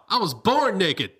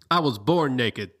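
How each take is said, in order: First: It is said sarcastically and enthusiastically. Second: It is said plainly, without sarcasm.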